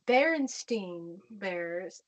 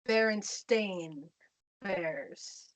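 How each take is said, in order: First: The name's last syllable sounds like 'stine'. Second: The name's last syllable sounds like 'stain'. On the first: This is the version remembered from childhood. "I'm gonna exaggerate this pronunciation a little bit, but I grew up w- with the Berenstein Bears" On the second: This is the version as it is spelled now. "it's now spelled Berenstain Bears"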